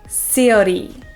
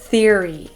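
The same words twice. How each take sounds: First: The word begins with an s sound. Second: The word begins with a th sound. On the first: The speaker calls it wrong. "many people say s and pronounce it theory" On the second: The speaker calls it right. "instead of theory"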